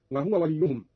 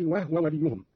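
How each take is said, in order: First: Said in the usual way. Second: وهو in two syllables, wah-wa; vowelless ha. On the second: Shown as a demonstration. Teacher shows Qalun's reading, وهو pronounced wahwa. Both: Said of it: "قرأ قالون بإسكان الهاء".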